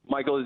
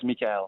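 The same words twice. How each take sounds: First: The name is pronounced the English way. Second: The name is pronounced the French way. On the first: "Michael is good for English people" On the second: "but in French it's Michael"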